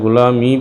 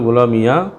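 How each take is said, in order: First: The word ends in a long ee sound. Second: The word ends with an added ya syllable. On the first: "ইয়াকে তুমি সাকিন দিবা" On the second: "অথবা ফাতাহ তাহা অথবা জবর দিবা"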